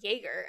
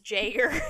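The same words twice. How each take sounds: First: The name has a German pronunciation. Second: The name has an Americanized pronunciation. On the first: This is the original pronunciation used in Germany. "I think that is how it's pronounced in Germany" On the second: This is the adapted pronunciation used in America. "the Americanized version is Jager"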